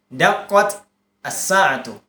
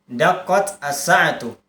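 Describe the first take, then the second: First: There is a stop between the two words. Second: The same.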